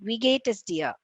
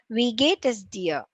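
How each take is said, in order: First: The phrase is spoken quickly. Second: The phrase is spoken at moderate speed. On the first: "The third speed" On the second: "And then the second speed"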